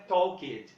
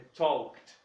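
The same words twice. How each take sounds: First: The -ed ending is said as an extra syllable. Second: The -ed ending adds no extra syllable. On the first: The speaker calls it wrong. "Não é talked" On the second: The speaker calls it right. "é talked"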